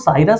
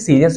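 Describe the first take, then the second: First: It is said as 'Sairus', with an 'ai' sound. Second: It is said as 'Seerius', with an 'ee' sound. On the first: "इसको साइरस" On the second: "या कभी कभी सीरियस भी पढ़ा जाता है"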